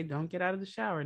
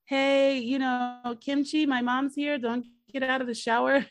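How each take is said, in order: First: Said in the usual way. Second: High, loud call from the next room; yelling. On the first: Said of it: "But okay". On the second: Retold or imitated. Son yelling to Kim Chi that his mom is here, loud call. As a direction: shout it through the apartment. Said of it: "but he's, like, yelling".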